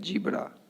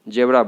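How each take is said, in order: First: The first syllable has a long 'ee' vowel. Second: The first syllable has a short 'eh' vowel. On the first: The speaker calls it right. "जी होता है" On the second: The speaker calls it wrong. "जेबरा बोल देते हैं"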